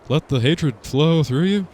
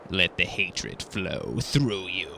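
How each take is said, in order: First: It is said in a drawling Texan voice. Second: It is said in a raspy, sinister villain voice. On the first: "If Hank Hill was the Emperor" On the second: "You just want to do your Emperor voice"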